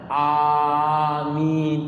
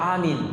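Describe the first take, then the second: First: The first vowel is held long. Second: The first vowel is short. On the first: The speaker calls it right. "dibaca panjang, dua harakat" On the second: The speaker calls it wrong. "bukan dibaca amin"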